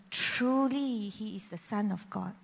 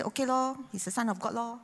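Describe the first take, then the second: First: Awed and sincere. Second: Casually dismissive, as if it's nothing special; offhand shrug. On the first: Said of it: "he said differently". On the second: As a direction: toss it off like a bored kid reading a verse. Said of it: "I say". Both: Retold or imitated.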